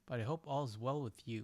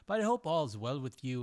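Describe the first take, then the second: First: It is read in the speaker's ordinary accent. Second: It is read in a put-on Irish accent.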